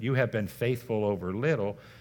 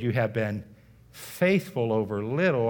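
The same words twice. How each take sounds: First: No word is given special emphasis. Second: The word faithful is emphasized.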